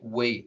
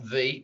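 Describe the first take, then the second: First: The word starts with a W sound. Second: The word starts with a V sound. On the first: The speaker calls it right. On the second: The speaker calls it wrong. "not V"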